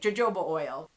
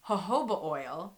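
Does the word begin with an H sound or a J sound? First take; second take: J sound; H sound. First: The word begins with a J sound. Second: The word begins with an H sound. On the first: "You got a J, you're going to be a J" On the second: "It's jojoba oil"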